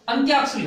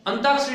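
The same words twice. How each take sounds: First: अंत्याक्षरी said correctly with a clear ant-yaa; correct pronunciation. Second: अंताक्षरी said wrongly as ant-aak-sha-ri, with no y sound; wrong pronunciation. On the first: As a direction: stress the य in अंत्याक्षरी. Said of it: "अंत्याक्षरी होता है". (सही उच्चारण अंत्याक्षरी, य पर ज़ोर) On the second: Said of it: "अंताक्षरी नहीं होता है". (गलत उच्चारण अंताक्षरी, बिना य के) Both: Shown as a demonstration.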